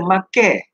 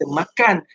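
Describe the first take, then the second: First: It is said in Kelantan dialect form. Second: It is said in standard Malay form.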